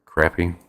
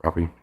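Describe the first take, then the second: First: Crappie said with a short flat A, like CRAP-ee; crappy pronunciation. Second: Crappie said with an "ah", like CROP-ee; croppy pronunciation. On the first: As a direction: say crappie to rhyme with happy. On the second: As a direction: say Crappie to rhyme with floppy. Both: Shown as a demonstration. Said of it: "told it's pronounced either way".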